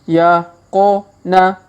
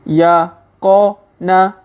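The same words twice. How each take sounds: The two takes are said the same way.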